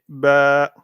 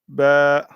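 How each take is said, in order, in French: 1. La voyelle est allongée et prolongée. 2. La voyelle est allongée et prolongée.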